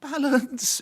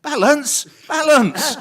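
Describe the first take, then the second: First: High, drawn-out "Balance"; a high sing-song warning of "Balance"; producer's warning. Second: High, loud "balance, balance" rising; shouted high warning echoing in the head. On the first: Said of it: "So he says". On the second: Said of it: "in my head". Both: Retold or imitated.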